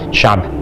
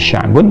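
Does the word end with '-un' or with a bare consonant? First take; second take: bare consonant; -un. First: The word ends on a bare consonant. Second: The word ends with a full '-un' ending. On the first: The reader stops at the end of the word. "misal sya'b gitu kan" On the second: The word is read without stopping. "kalau kita kemudian membaca ini sya'bun"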